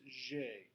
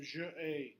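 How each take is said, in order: First: The vowel of je is dropped before ai. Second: The vowel of je is kept before ai. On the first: The speaker calls it right. "so it's j'ai" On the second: The speaker calls it wrong. "You can't do that in French"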